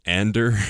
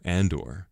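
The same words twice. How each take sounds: First: Ander said with a short a and a final er, like the text-to-speech voice; mispronounced Andor. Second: Said in the usual way. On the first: Retold or imitated. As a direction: say Ander, not Andor, imitating the robotic reader. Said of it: "as the Variety automated voice person read it out loud to us". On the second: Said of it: "or as the Variety automated voice person".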